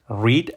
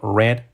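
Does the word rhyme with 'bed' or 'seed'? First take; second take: seed; bed. First: The vowel is long, like in 'seed'. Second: The vowel is short, like in 'bed'. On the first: It is the base form of the verb. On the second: It is the past form of the verb.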